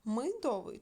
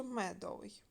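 First: First syllable clearly МИ in Мидовий; spelling option with И. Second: First syllable clearly МЕ in медовий; spelling option with Е. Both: Shown as a demonstration. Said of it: "Нам треба вставити літери".

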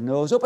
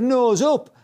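First: Pupil's echo. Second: High, loud mock instructor order; instructor's command. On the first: Retold or imitated. Pupil repeats instructor's order back, retold hesitant echo. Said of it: "I said". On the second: Instructor orders pupil to climb, retold command. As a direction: call out sharply as an imitated instructor. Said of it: "He said".

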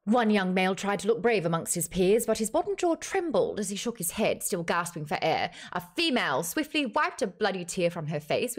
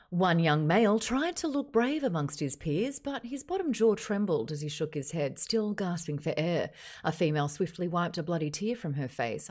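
First: Dramatic novel narration, lively pitch; audiobook narrator. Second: Australian TV newsreader delivery. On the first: Acted. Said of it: "using the narrator for that one". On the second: Shown as a demonstration. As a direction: read it like the evening news. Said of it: "Like the Channel Seven News".

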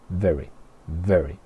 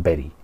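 First: Very with English V, not B; V como F. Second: Very said with a B, "beri"; pronunciación incorrecta. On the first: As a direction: model very slowly with an F-like V. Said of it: "es un sonido como una F". (very con V inglesa, como una F) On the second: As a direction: say very as "beri", Spanish-style. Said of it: "No decimos very". (very con B española, "beri") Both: Shown as a demonstration.

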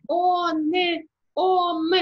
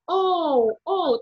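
First: "он", "ом" with a full n and m; wrong hard-consonant version. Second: "оу" as a nasal o gliding to u; drawn-out nasal "оу", no hard n; nasal Polish vowel. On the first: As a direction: close the nasal into a clear consonant: "он", "ом". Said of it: "в жодному випадку не можна казати". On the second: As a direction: say "оу" as if lightly pinching the nose. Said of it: "Вона вимовляється як". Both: Shown as a demonstration.

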